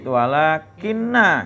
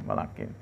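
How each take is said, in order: First: The n is doubled and held long. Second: The n is single and short. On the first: "dengan tasdid walakinna" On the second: "tanpa tas tasdid atau walakin"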